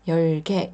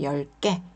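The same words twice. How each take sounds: First: The g sound is plain and lax. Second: The g sound is tense and stiff. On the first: The speaker calls it wrong. "이렇게 하지 마시고요" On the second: The speaker calls it right. "쌍기역 발음이 나요"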